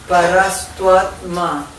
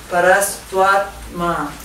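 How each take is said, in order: No difference in how they are said.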